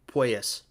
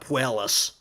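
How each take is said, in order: First: The middle consonant is a Y sound. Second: The middle consonant is an L sound. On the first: The speaker calls it right. "There's no L's in there" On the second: The speaker calls it wrong. "It's not Puelas"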